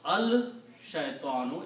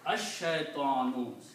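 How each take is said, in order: First: The l is pronounced before a single sh. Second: The l is silent and the sh is doubled. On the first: The speaker calls it wrong. "You don't pronounce al shaytanu" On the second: The speaker calls it right. "lam becomes silent. And sheen has to be pronounced twice"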